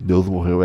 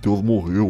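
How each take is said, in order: First: It is said in a heavy, grave tone. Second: It is said in a gleeful, triumphant tone. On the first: The death of God is a tragedy. The speaker calls it right. "não é um tom legal, assim" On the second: The death of God is good news. The speaker calls it wrong. "Os ateusão ficam assim"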